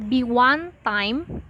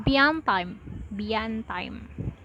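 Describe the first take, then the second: First: "Be one time" with each word separate; unlinked words. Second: "bian time", be and one run together; linked words. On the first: Teacher showing linking, "Be one time" said word by word. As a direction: keep the W clear in "Be one time". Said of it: "connecting two or more words together". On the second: Teacher showing linking, "bian time" run together as pronounced. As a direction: link "bian time" into one smooth unit. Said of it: "is pronounced". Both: Shown as a demonstration.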